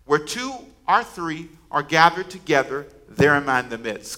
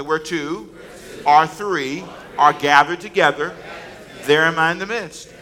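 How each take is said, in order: First: Said in the usual way. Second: Slow, louder recitation; like you mean it. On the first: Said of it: "Come on, say it". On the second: Shown as a demonstration. Congregation repeats the verse louder, with conviction. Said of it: "say it like you mean it".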